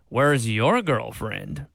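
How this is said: It sounds mocking and condescending.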